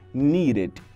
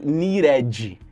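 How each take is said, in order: First: The ending has an English-style short sound. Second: The ending has a Portuguese-style vowel sound. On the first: The speaker calls it right. "Não, needed" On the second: The speaker calls it wrong. "que a gente quer falar, né, por ser falante de português"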